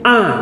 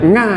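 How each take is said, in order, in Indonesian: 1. Huruf itu diawali dengan vokal biasa. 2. Huruf itu diawali dengan bunyi sengau ng. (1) "orang membaca ain, a" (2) "orang Jogja ... a jadi nga"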